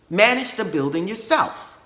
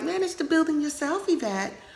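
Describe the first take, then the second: First: It is said firmly, with authority. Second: It is said softly, without authority.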